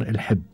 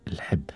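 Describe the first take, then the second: First: الحب said al-ḥibb, with a kasra under the ḥ; الحب pronounced with ḥi, not ḥu; الحب in Qatari, ḥ carrying an i vowel; Qatari pronunciation. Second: الحب said al-ḥibb, softly repeated with a kasra under the ḥ; الحب pronounced with ḥi, not ḥu; Qatari pronunciation. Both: Shown as a demonstration. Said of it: "بكسر الحاء".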